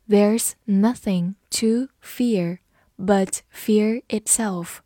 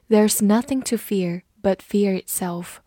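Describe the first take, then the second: First: Slow, deliberate teaching read with words spaced apart; slow read-through. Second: Said in the usual way. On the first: Shown as a demonstration. Teacher models the sentence for students, slow read-through. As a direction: read it slowly for learners to follow. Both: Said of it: "我们慢读一遍".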